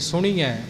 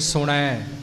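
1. ਨ ਧੁਨੀ ਤੋਂ ਬਾਅਦ ਲੰਮੀ ਈ ਦੀ ਮਾਤਰਾ ਆਉਂਦੀ ਹੈ। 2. ਨ ਧੁਨੀ ਤੋਂ ਬਾਅਦ ਕੋਈ ਸਿਹਾਰੀ ਨਹੀਂ ਆਉਂਦੀ। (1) "ਸੁਣੀਐ ਉਹ ਬਿਹਾਰੀ ਬਣ ਜਾਂਦੀ ਹੈ" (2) "ਸੁਣੈ ਉਹ ਵੀ ਗਲਤ ਹੈ"

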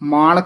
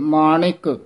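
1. 'n' ਧੁਨੀ ਤੋਂ ਬਾਅਦ ਕੋਈ 'i' ਸਵਰ ਨਹੀਂ ਆਉਂਦੀ। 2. 'n' ਧੁਨੀ ਤੋਂ ਬਾਅਦ ਛੋਟੀ 'i' ਸਵਰ ਆਉਂਦੀ ਹੈ। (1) "ਮਾਣਕ ਨਹੀਂ ਕਹਿ ਦੇਣਾ" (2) "ਨਾਣੇ ਨੂੰ ਸਿਆਰੀ ਲੱਗੀ ਹੋਈ ਹੈ"

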